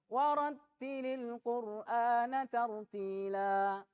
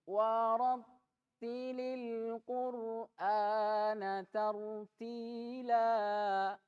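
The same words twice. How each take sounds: First: It is recited quickly. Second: It is recited slowly and drawn out. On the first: "Kalau hadar cepat. Nah, ini kalau hadar" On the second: "At-tahqiq. Dengan lambat"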